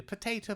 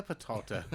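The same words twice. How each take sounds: First: "Potato" said pə-TAY-to; American "Potato", the TAY sound; potato with long a. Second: "potato" said pə-TAH-to, lower and softer; the other "potato", broad AH in the middle. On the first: Teasing his annoyed friend with the American say-it-this-way potato. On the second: Answering the American potato with the contrasting pə-TAH-to. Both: Shown as a demonstration. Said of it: "do you know what shouldn't annoy you? Potato, potato".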